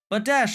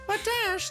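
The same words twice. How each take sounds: First: It is said in a normal speaking voice. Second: It is said in a put-on, high-pitched voice. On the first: "I could just talk normally and just, and not do the voice" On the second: "This sounds so bad"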